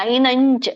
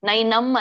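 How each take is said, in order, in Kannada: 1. ಕೊನೆಯ ಅನುನಾಸಿಕ ಚ ಮೊದಲು ನ ತರಹ ಇರುತ್ತದೆ. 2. ಕೊನೆಯ ಅನುನಾಸಿಕ ಮುಚ್ಚಿದ ಮ ಧ್ವನಿ. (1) "ಇಲ್ಲಿ ನೈನಂಚ್ ನೈನಂಚಿಂದಂತಿ" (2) "ನೈನಂ ನೈನಂ ಅನ್ನಂಗಿಲ್ಲ"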